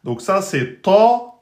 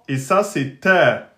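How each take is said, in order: First: "ta" emphatic, dark and slow; heavy ta. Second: "ta" light and thin, front a. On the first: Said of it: "prononcer de façon grave". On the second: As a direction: say "ta" light, as in French. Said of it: "l'opposé de la lettre ta en aminci". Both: Shown as a demonstration.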